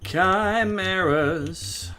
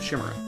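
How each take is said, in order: First: The word begins with a hard k sound. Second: The word begins with an sh sound. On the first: "It still feels so unnatural to say that" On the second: "I was basically mispronouncing"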